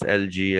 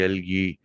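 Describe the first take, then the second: First: Algae said with a soft j sound, AL-jee. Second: Algae said with a hard g, AL-gee. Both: Shown as a demonstration. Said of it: "whatever you can pronounce".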